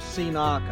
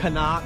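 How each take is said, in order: First: It starts with the letter name 'see'. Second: It starts with a short 'ca' syllable. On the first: "I've heard people call it a C-knock" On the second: "they pronounced it Canuck"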